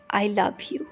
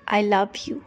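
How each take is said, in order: Both takes have the same delivery.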